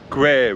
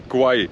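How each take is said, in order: First: The vowel sounds like the vowel in square. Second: The vowel sounds like the word eye. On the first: The speaker calls it right. "with a e sound as in square" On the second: The speaker calls it wrong. "It's not really pronounced the river Kwai"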